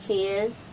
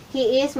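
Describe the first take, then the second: First: HIS as one syllable, he's; contracted form. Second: HE IS as two separate words; full form. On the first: Teacher showing what he is becomes, contracted. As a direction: run he and is together into HIS. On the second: Teacher showing beginners the long form, full form. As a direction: keep HE and IS apart, pitched up. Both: Shown as a demonstration.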